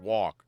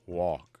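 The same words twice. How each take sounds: First: It is said in a higher, normal voice. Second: It is said in a much lower, deeper voice. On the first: The speaker calls it wrong. "I was saying it at this tone" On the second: The speaker calls it right. "I literally had to like lower my voice even more than my normal talking voice"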